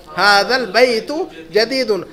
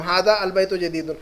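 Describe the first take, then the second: First: हादल बैतु जदीदुन with हादा run into the lam as one word हादल, alif silent; slow and careful, हादल as a single word, no separate अल; joined hadal. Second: हादा अल बैतु जदीदुन with हादा and अल apart, the alif fully sounded; wrong separated reading. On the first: Teacher to students, showing the correct joined reading slowly. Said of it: "हादल बैतु जदीदुन कहेंगे हम". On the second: Teacher to students, showing the reading not to use. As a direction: read it as two words, हादा then अल, not run together. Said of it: "लेकिन ऐसा नहीं पढ़ेंगे हम". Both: Shown as a demonstration.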